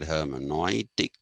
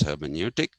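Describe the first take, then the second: First: The word is pronounced with German sounds. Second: The word is pronounced with English sounds. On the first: This is how the original German thinker would say it. "He would have said hermeneutic" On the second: It is said this way because the talk is in English. "since I put it in English, I'm going to pronounce it as hermeneutic"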